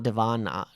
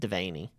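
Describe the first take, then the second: First: The middle syllable does not sound like 'vane'. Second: The middle syllable sounds like 'vane'. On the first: The speaker calls it wrong. "not Devana" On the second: The speaker calls it right. "it is Devaney"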